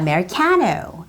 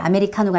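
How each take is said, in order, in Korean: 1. 한 음절에 분명한 강세가 있습니다. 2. 모든 음절에 거의 같은 무게를 줍니다. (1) "와 같이 강세가 있어요" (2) "아메리카노가 아니라"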